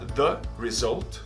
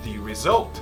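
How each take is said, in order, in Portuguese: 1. A frase é dita de forma simples, sem ênfase. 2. A frase é dita com muita ênfase. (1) "Eu poderia falar the result" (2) "como eu estou dando ênfase"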